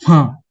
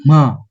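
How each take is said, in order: First: The pitch falls sharply from high to low. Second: The pitch falls sharply from high to low.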